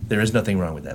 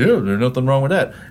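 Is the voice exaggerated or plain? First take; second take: plain; exaggerated. First: It is said in a plain, regular voice. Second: It is said in an exaggerated, put-on voice. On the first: "I'll say it in a regular voice" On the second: "And I'm not mocking you when I say that"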